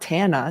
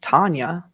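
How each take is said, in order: First: The name has no y sound after n. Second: The name has a y sound after n. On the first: The speaker calls it wrong. "It's not Tana" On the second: The speaker calls it right. "it's Tanya"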